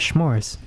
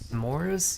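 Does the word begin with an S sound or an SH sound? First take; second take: SH sound; S sound. First: The word begins with an sh sound. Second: The word begins with a plain s sound. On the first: "It's with the H" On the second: "sounds kind of yucky to me"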